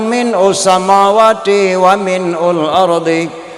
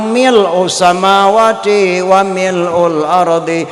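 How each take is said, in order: First: The first word is said with an n sound. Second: The first word is said with an l sound. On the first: The speaker calls it wrong. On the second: The speaker calls it right.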